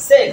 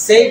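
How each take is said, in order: First: "সেভ" with the corrected short e. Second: "সেভ" as learners commonly say it; wrong "say". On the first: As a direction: model "সেভ" with a short, plain e vowel. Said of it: "এটা হবে সেভ". ("সেভ" ছোট এ দিয়ে শুদ্ধ উচ্চারণ) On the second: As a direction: model the mistaken form "সেভ" with the common local vowel. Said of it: "এটা সেভ না". ("সেভ" প্রচলিত ভুল উচ্চারণে) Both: Shown as a demonstration.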